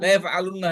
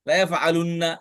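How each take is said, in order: First: The vowel before the n is short. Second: The vowel before the n is long. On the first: The speaker calls it right. "এই জন্য ওয়াওটা এখানে পড়ে গেছে" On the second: The speaker calls it wrong. "এভাবে সম্ভব না"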